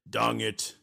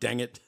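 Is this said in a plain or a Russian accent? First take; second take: Russian; plain. First: It is said in a put-on Russian accent. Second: It is said in the speaker's ordinary accent.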